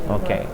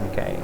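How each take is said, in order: No difference in how they are said.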